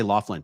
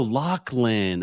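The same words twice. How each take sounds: First: "Laughlin" said as LOFF-lin; mispronunciation. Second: "Laughlin" said as LOCK-lin, drawn out; "Laughlin" with the gh as a hard k; corrected pronunciation. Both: Shown as a demonstration. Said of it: "Oh, I say Laughlin".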